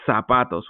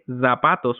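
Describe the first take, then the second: First: The word begins with a hissing s sound. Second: The word begins with a buzzing z sound. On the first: The speaker calls it right. "we're going to say zapatos with an S" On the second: The speaker calls it wrong. "we're not going to say zapatos"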